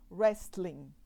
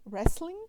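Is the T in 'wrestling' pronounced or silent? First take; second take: pronounced; silent. First: The T sound is pronounced in this word. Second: The T sound is silent in this word. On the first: The speaker calls it wrong. "usando o T que não é pronunciado" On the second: The speaker calls it right. "a pronúncia correta da palavra é wrestling"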